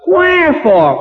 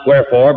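First: The word is said as an asking question. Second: The word is said flatly, as a statement. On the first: The speaker calls it right. "but wherefore? Why on earth are you acting this way?" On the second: The speaker calls it wrong. "not wherefore"

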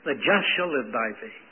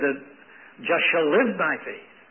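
First: The stress is on the word just. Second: The stress is on the word live.

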